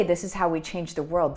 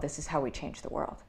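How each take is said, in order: First: Said in the usual way. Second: Much softer, weighted restatement of this is how we change the world; soft, earnest repeat of the slogan; quiet emphasis. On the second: Shown as a demonstration. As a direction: drop your voice and let it land. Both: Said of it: "when I say".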